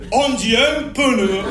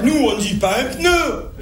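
First: "pneu" slowly as two syllables, "peu-neu"; pneu with extra E. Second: "pneu" as one syllable; pneu without extra E. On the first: Marseillais showing local speech, "pneu" stretched to "peu-neu". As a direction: put an E between P and N in "pneu". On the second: Marseillais quoting standard French, "pneu" said in one syllable. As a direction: run P and N together in "pneu". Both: Shown as a demonstration. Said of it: "on en met là où il en faut pas".

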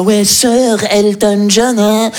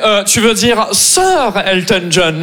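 First: Slow, snooty drawl of Sir; mock a smug Parisian; slow haughty mockery of the Parisian; condescending. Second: Slow, snooty correction; slow haughty correction; condescending. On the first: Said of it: "la condescendance qu'il avait dans sa voix". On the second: Retold or imitated. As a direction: talk down to him. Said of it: "il me fait".

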